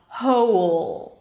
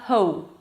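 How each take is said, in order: First: The word ends in a dark L sound. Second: The L becomes a rounded O-like vowel. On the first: The speaker calls it right. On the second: The speaker calls it wrong.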